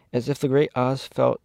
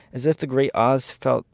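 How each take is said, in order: Both takes have the same delivery.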